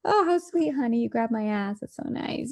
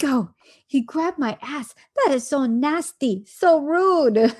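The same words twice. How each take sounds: First: Wife imitated, pleased at being grabbed, sugary and fading to a whisper; mock sweetness. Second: Mock disgust. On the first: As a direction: gush over it like a flattered sweetheart. Same act, imitated as pleased. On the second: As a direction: play the offended wife, hamming up the outrage. Wife's disgusted reaction, imitated.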